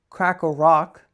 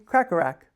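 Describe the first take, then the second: First: The last syllable has an 'ah' vowel, like rock. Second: The last syllable has an 'a' vowel, like rack. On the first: The speaker calls it wrong. "It's not crack a rock" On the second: The speaker calls it right. "it's rack"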